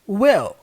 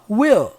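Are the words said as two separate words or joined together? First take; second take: joined; joined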